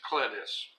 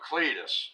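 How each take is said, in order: First: Clitus with a short I, as in "lit". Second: Cletus with a long EE first vowel. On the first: Co-host correcting the familiar name, Clitus with short I. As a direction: say "Clitus" as CLIT-us. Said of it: "But it's Clitus". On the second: Co-host reacting to an odd baby name, Cletus with long EE. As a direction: say "Cletus" as CLEE-tus. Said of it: "sounds like somebody misspelled Cletus". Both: Shown as a demonstration.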